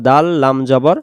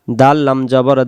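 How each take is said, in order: Both takes have the same delivery.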